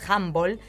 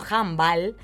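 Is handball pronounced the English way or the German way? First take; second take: English; German. First: The word is pronounced the English way. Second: The word is pronounced the German way. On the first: The speaker calls it wrong. "como si viniera del inglés" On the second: The speaker calls it right. "viene del alemán"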